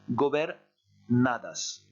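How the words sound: A short pause splits the word in two. "faire une micro-pause entre la partie en rouge et la partie en orange"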